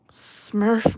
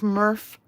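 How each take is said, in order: First: "Smurf" with the opening S sounded; corrected pronunciation. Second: "Murph" with the opening S missing; mispronunciation. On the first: Streamer showing the right word, "Smurf" with its S. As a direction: say "Smurf" with a clear S before the M. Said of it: "not Murph". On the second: Streamer echoing the slip, "Murph" without an S. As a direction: say "Murph" starting straight on the M. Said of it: "Did I say it funny?". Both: Shown as a demonstration.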